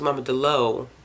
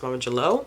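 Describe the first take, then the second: First: The second word begins with a D sound. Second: The second word begins with a J sound. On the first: This is how the speaker first assumed it was said. The speaker calls it wrong. "which I thought it was" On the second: This is how the audiobook narrator said it. The speaker calls it right. "with the G"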